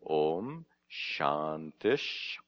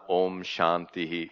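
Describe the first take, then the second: First: The word ends with a 'sh' sound. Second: The word ends with a full 'ihi' sound. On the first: The speaker calls it right. "but rather Om Shantish" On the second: The speaker calls it wrong. "the correct pronunciation is not Om Shantihi"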